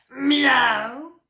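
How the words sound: The meow is made with a rough growl.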